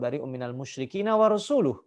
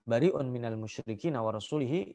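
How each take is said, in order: First: The last word ends with the sound -uh. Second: The last word ends with the sound -ihi. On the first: The messenger also disowns the polytheists. The speaker calls it right. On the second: God disowns the messenger too. The speaker calls it wrong.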